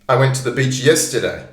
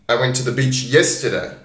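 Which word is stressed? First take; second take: yesterday; yesterday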